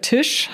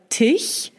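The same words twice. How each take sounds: First: The word ends in an sh sound. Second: The word ends in a soft ch sound. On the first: The speaker calls it right. "im Echten" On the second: The speaker calls it wrong. "wenn in einem Wort ein CH-Laut sch ausgesprochen wird, können die das nicht sagen"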